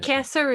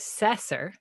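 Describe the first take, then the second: First: The name begins with a hard K sound. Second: The name begins with a soft S sound. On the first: The speaker calls it right. "Kesser is so much more" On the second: The speaker calls it wrong. "the way that is the wrong way, which is Cesar"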